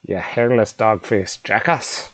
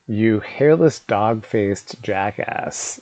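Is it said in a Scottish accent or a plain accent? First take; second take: Scottish; plain. First: It is said in an attempted Scottish accent. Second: It is read in the speaker's ordinary voice.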